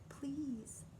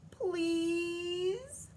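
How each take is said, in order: First: Soft whispered please. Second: High, louder crying please; tearful plea. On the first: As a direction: breathe the word please gently. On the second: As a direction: beg through tears. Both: A narrator's reading. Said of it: "She finally said".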